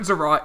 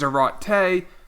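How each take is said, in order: First: The name ends on a final t sound. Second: The name ends with a final ay vowel sound. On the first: The speaker calls it wrong. "It's not Zerat" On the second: The speaker calls it right. "it is Zarate"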